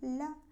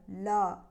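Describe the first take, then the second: First: The L sound is very thin and weak. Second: The L sound is heavy and thick. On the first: "tipis sekali, kurang kuat" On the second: "orang-orang membaca dengan tebal"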